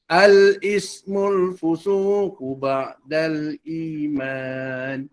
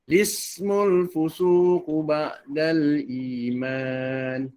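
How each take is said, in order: First: The phrase begins with an 'a' vowel before the L. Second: The phrase begins directly with a voweled L sound. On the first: "Sama ada" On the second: "baca juga seperti lam tu yang dibariskan"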